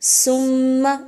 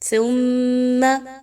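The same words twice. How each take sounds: First: It begins with a hard s sound. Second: It begins with a soft th sound. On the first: The speaker calls it wrong. "सा को सीन की तरह नहीं पढ़ना, सुम्मा ऐसा करना ... दुरुस्त नहीं है" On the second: The speaker calls it right. "बल्कि इसको आपने नरमी के साथ पढ़ना है।"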